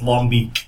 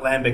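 First: The name is said with a Belgian-style pronunciation. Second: The name is said with an English-style pronunciation. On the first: The speaker calls it right. "it's Longbeak" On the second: The speaker calls it wrong. "It's not Lambic"

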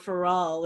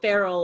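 First: The name is said with a fancy pronunciation. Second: The name is said the plain, ordinary way.

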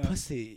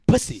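First: The stress falls on the second syllable. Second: The stress falls on the first syllable. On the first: It sounds sexy. The speaker calls it right. "You gotta ride the S-Y" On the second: It sounds angry, not sexy. The speaker calls it wrong. "It sounds angry"

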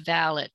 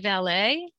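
First: The word ends with a clear T sound. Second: The word ends without a T sound. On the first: This is how it is said in England. "In England it's valet with a T" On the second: This is how it is said in this country. "I think in this country we say valet"

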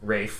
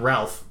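First: It is said as Rafe, with no L sound. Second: It is said as Ralf, with an L sound. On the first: The speaker calls it right. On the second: The speaker calls it wrong. "Not Ralph"

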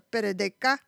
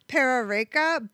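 First: The R sounds are quick taps like D. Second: The R sounds are ordinary English R sounds.

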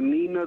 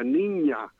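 First: The middle consonant is a plain n. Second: The middle consonant is an ny sound. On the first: The speaker calls it wrong. "when I was in school" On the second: The speaker calls it right. "should have been the Niña"

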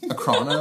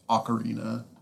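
First: The word is said with three syllables. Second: The word is said with four syllables. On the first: The speaker calls it wrong. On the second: The speaker calls it right.

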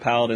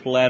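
First: It is said without rhyming with Aladdin. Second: It is said to rhyme with Aladdin. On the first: This is the usual way of saying it. "instead of Paladin" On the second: It is said this way on purpose to provoke listeners. "I'm going to say Paladin instead of"

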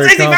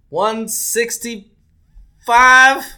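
First: It sounds firm and confident. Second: It sounds hesitant and unsure.

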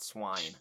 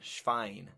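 First: It is pronounced like the English word swine. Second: It is pronounced the German way. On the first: The speaker calls it wrong. "not swine" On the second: The speaker calls it right. "and it's German, Schwein"

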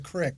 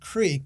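First: The vowel is short, like 'crick'. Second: The vowel is long, like 'creek'. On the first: It is the everyday word for a stream. "so two very different things" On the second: It is part of a formal place name. "I would call it Big Walnut Creek"

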